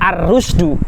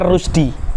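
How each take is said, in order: First: The word ends with a u vowel. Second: The word ends with an i vowel. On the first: The word is the passive subject of the verb. The speaker calls it right. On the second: The sentence would lack its passive subject. The speaker calls it wrong.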